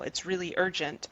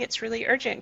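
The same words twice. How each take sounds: First: It is said in a harsh, demanding tone. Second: It is said in a sweet, higher tone. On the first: The listener may resist the request. "the mean voice" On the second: The request asks kindly for a hand. "the sweet voice, the higher voice"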